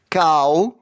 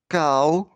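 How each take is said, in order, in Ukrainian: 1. Слово сказано голосно. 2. Слово сказано трохи тихіше. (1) "Голосно" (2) "тихіше"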